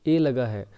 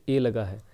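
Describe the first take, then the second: No difference in how they are said.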